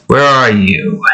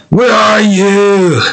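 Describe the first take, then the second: First: Said in the usual way. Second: High, slow sung ogre voice; Shrek voice. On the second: Shown as a demonstration. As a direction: sing it like a cartoon ogre. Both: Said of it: "It's sung by Shrek".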